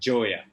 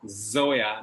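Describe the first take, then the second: First: The name begins with a j sound. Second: The name begins with a buzzing z sound. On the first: The speaker calls it wrong. "not Joya" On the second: The speaker calls it right. "your mother name is Zoya"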